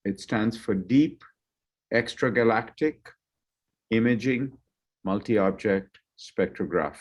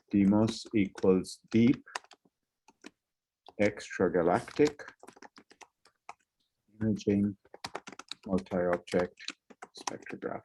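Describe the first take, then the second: First: Said in the usual way. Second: Slow, trailing dictation, fading away; slow dictation while typing. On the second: Shown as a demonstration. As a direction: spell it out slowly as you type. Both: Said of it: "I'm going to write this in the chat".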